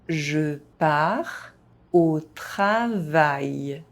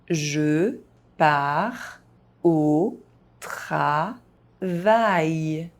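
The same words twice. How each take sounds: First: It is spoken at an ordinary, moderate pace. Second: It is spoken very slowly, syllable by syllable. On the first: "at a normal pace" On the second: "very slowly"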